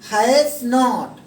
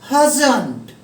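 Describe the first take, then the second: First: It is said as two full separate words. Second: It is said as one contracted word. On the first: "हैज में जब नॉट जुड़ता है तो हो जाता है हैज नॉट" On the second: "British style में बोला जाता है"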